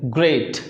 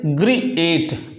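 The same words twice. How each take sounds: First: Said in the usual way. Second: ग्रीएट slowly split into two syllables, gree-ate; mispronounced ग्रीएट. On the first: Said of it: "कैसा बोलते हैं?". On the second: Shown as a demonstration. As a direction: say ग्रीएट wrongly, sounding both vowels apart. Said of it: "इसको ऐसे तो pronounce नहीं करते".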